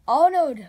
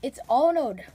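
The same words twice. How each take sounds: First: "Arnold" shouted, much louder; exasperated loud correction. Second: Said in the usual way. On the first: Real, not acted. Teacher exasperated that the student misspelled his name, loud. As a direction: bark "Arnold" in disbelief. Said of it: "it's not Onan". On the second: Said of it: "No, no, no, it's not Onan".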